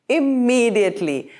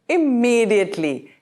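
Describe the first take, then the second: No difference in how they are said.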